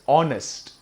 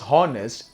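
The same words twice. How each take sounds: First: The word begins with a vowel sound. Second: The word begins with an h sound. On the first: The speaker calls it right. "H is silent here. It is just pronounced as honest" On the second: The speaker calls it wrong. "It is not pronounced as honest"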